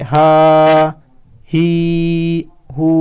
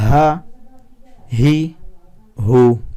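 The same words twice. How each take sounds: First: The vowels are stretched out long. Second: The vowels are kept short and crisp. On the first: The speaker calls it wrong. "बहुत सारे लोग ऐसे पढ़ते हैं, ये मिस्टेक नहीं करनी है" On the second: The speaker calls it right. "इसे पढ़ना है"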